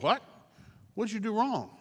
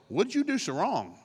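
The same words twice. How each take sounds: First: Higher, stunned repeat of the question; incredulous echo. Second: Pointed, prying question; accusing friends. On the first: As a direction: throw it back in disbelief. Job echoing in disbelief. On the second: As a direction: needle him like a suspicious friend. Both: Acted.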